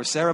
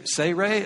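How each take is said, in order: First: Said in the usual way. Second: Sarai as "say-RAY", two long ay sounds; name variant. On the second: Shown as a demonstration. Preacher listing what he might call her, Sarai as "say-RAY". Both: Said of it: "I might call her".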